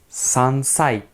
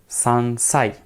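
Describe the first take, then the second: The two takes are said the same way.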